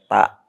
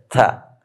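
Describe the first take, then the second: First: The t is released without a puff of air. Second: The t is released with a puff of air. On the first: The speaker calls it wrong. "bukan ta ya" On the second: The speaker calls it right. "Harus ada keluar udara ta-nya"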